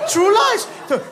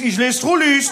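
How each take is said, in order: First: It is pronounced as English words. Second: It is pronounced as one German-sounding word. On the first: This is the film's original title. "wie heißt der im Original? True Lies" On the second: The title is read as it is spelled. "Da steht Trullis, ich lese Trullis"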